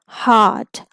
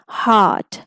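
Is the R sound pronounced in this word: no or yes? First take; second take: no; no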